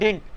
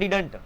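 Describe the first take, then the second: First: The middle d is dropped; it ends in t. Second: Every sound of the word is pronounced clearly. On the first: A more fluent, shortened form. "फिर वो बोलता है डिंट" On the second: A beginner's careful form. "एक beginner start करता बोलता है डिडंट"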